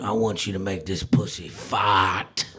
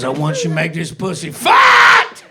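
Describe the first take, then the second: First: Low, slow bedroom murmur; sultry low request. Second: Louder, pushier repeat of the request; insistent demand.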